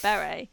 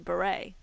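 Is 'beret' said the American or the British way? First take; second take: British; American. First: It is said with a British pronunciation. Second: It is said with an American pronunciation. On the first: "English people say beret" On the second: "American people say beret"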